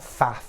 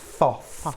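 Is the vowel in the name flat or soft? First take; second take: flat; soft. First: The vowel is a flat 'a' as in 'cat'. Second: The vowel is a soft, open 'o'-like sound. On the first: The speaker calls it wrong. "it's not faff" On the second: The speaker calls it right. "It's foff"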